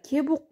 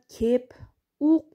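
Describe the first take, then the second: First: The p softens to b, words run together. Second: The p is kept, words said separately. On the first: This is how it is naturally spoken. "айтылышында кебук деп коебуз" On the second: This is how it is written. "жазылышында кеп ук деп жазылат"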